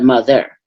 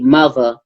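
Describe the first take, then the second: First: The word is said in the standard pronunciation. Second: The word is said in the local dialect pronunciation. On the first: This is the usual form elsewhere. "instead of mother" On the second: This is how people spoke where the speaker grew up. "where I grew up. I grew up where people say they they say mother"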